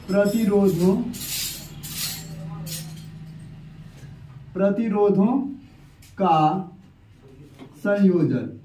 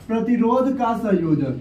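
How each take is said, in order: First: Word by word, long pauses between; low, drawn-out dictation, falling away at the end; writing-out dictation. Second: Said in the usual way. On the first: Real, not acted. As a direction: voice the words slowly as you write them. Dictates heading while writing it out.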